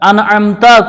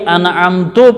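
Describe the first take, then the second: First: The word ends with an 'a' vowel. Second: The word ends with an 'u' vowel. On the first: The speaker calls it right. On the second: The speaker calls it wrong.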